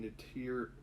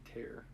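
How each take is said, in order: First: "tear" said like crying tears, rhyming with "here"; "tear" wrongly said as the tear of an eye; misread word. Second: "tear" said like ripping, rhyming with "air"; "tear" rhymes with "bear", a soft self-correction; corrected pronunciation. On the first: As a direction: read "tear" as in teardrops, by mistake. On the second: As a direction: fix it to "tear" as in tear open, quietly. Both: Shown as a demonstration. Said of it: "oh, sorry".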